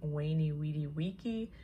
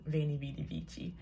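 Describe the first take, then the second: First: It is said with classical Latin pronunciation. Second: It is said with modern pronunciation. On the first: "the correct Latin pronunciation would have been" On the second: "I'm going with a more modern pronunciation"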